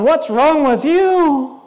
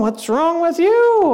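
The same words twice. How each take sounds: First: Slow, drawn-out mock accusation; acted incredulous reproach; accusing. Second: High, drawn-out mock accusation; acted indignant comeback; accusing back. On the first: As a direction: stretch it out, judging the other person. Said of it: "you're looking at me going". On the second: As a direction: throw the reproach back, higher and slow. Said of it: "I'm looking at you going".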